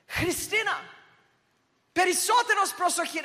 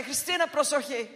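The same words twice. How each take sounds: First: Imitated mum yelling a high, urgent warning in Greek; mother's warning yell. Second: Said in the usual way. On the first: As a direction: yell it higher and louder, like a mother sensing danger. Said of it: "my mum would, like, yell". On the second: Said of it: "It's not like when she just say".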